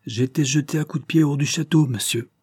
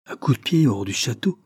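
First: "jeté à coups de pied hors du château" hammered out, higher, indignant; emphatic, word by word. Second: Astonished echo, questioning rise; deeply surprised. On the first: Kicked-out servant answers the questioner, emphasising every word of "coups de pied hors du château". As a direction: lean on each word of "J'ai été jeté à coups de pied", pitched higher. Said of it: "répondit en appuyant sur chacune de ses paroles".

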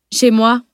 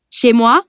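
First: Self-satisfied interruption; smugly satisfied. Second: Raised, questioning tease; gently ironic. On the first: Master interrupts Mathieu to turn his line on him, smug. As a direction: cut in, pleased with easy revenge. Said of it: "l'air satisfait que procure une revanche facile". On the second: Mathieu replies to the shocked analyst, gently ironic. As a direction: answer with light, friendly irony. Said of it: "gentiment ironique". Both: A narrator's reading.

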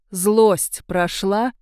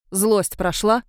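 First: Очень медленно, с нажимом на «Злость»; выдави ответ, растягивая «Злость прошла»; требовательно. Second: Said in the usual way. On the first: A narrator's reading. (Анук требовательно переспрашивает Марго, медленно и с нажимом) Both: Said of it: "повторила Анук требовательно".

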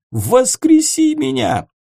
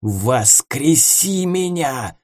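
First: High, loud desperate demand; desperate shout. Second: Slow, hissed demand; hissing. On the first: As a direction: scream the demand at him. Ghost demands revival. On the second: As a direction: hiss it like a threat. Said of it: "зашипел Ворон". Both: Acted.

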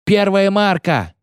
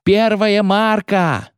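First: High, drawn-out sing-out; sailor's bellowed call. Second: Very high, long-held call; sailor's bellowed call. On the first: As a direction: call the depth across the ship. (протяжный матросский выкрик) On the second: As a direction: sing the sounding out, stretched. (очень протяжный высокий выкрик) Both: A narrator's reading. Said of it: "заорал матрос с лотом".

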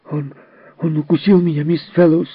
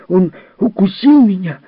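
First: Put-on high, loud angry boy; breathless with anger, cry it out; angry child's cry. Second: High, loud angry yell; shouted complaint. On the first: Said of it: "задыхаясь от злости, крикнул Джерри". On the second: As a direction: yell it as a hurt boy. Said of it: "крикнул Джерри". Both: A narrator's reading.

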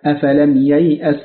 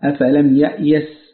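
First: ييأس as yay'as, y before the hamza; standard letter order. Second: يأيس as ya'yas, hamza before the y; swapped letter order. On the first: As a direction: slowly sound ييأس with glide, then catch. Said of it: "الاختلاف بالتقديم والتأخير". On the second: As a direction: slowly sound يأيس with catch, then glide. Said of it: "وقرئ". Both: Shown as a demonstration.

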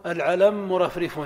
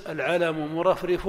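First: "العلم مرفرف" as al-ʕalammurafrif, one doubled mim; merged mim. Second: "العلم مرفرف" with both mim sounds said apart; separated mim. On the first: Teacher showing the class the merged "العلم مرفرف". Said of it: "أو تدغم فتقول". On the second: Teacher showing the class the unmerged "العلم مرفرف". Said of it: "لك أن تظهر". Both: Shown as a demonstration.

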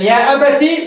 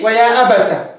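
First: يا أبتي ending in "-tii"; the ta of أبتي carrying an i sound; ta with kasra. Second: أبتا ending in an open "-taa"; the ta of أبتا carrying a long a sound; ta with fatha. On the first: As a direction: close أبتي on an ee vowel after the ta. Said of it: "مكسورة". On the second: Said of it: "مفتوحة". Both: Shown as a demonstration.

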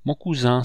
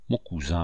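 First: An eager outcry, a touch higher; mild impulsive cry; with élan. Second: Noble and calm. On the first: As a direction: call out warmly, first time saying it. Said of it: "s'écria le chasseur avec élan". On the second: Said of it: "répondit le planteur avec noblesse". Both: A narrator's reading.

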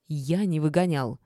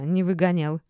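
First: "Я не выгонял" pushed out in mild outrage; indignant. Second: Louder mocking echo, "не выгонял" said with a smirk. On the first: Ex-husband denies throwing her out, mildly indignant. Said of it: "возмутился Горшков". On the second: Lidia mocks her ex-husband's denial with a smirk. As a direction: throw "не выгонял" back sarcastically. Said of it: "усмехнулась я". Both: A narrator's reading.

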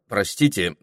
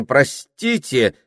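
First: Said in the usual way. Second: Louder, higher, slow excuse me. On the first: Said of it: "начал он". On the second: Acted. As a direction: say it louder to be heard. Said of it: "уже гораздо громче".

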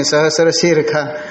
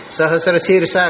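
First: शीर्षा said as shirkha, ष turned into kha; northern kha pronunciation. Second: शीर्षा with a clear sh sound, as in the south; southern pronunciation. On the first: Teacher showing how northern chanters say शीर्षा as shirkha. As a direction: say शीर्षा with a kh sound in place of ष. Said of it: "ये लोग ख कहेंगे". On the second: Teacher showing how southern chanters say शीर्षा with sh. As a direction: say शीर्षा as shirsha, ष like sh. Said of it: "वो दक्षिण में सह कहेंगे". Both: Shown as a demonstration.

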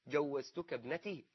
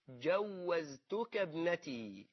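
First: Said in the usual way. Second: جوزتك very slow and drawn out, j first, z after; swapped-letter form. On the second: Shown as a demonstration. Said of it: "غير في بعض إيه؟ حروفها". (نطق مصحّف ممطوط لكلمة جوزتك)

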